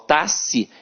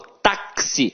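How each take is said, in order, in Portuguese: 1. O x é pronunciado como um s só. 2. O x é pronunciado como k mais s. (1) "eu não falo tassi" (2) "o X aqui tem som de K S"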